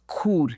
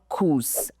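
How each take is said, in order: First: The word ends without an s sound. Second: The word ends with an s sound. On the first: The speaker calls it right. "The pronunciation is cour" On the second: The speaker calls it wrong. "not course"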